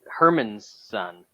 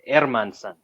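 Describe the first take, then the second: First: The name begins with an H sound. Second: The name begins with a vowel, like Airman. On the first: The speaker calls it wrong. "he's not Herman's son" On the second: The speaker calls it right. "correct pronunciation"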